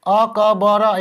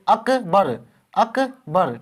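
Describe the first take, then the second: First: अ, क, ब, र spoken as four separate syllables with a pause after each; syllables अ, क, ब, र read apart instead of as one word; wrong letter-by-letter reading. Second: अकबर said as one flowing word, ak-bar; अकबर joined up, no breaks between letters; correct smooth reading. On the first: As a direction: break अकबर into अ, क, ब, र one letter at a time, choppy. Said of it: "ऐसे तो नहीं पढ़ेंगे". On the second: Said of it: "ठीक है, ऐसे पढ़ते हैं". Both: Shown as a demonstration.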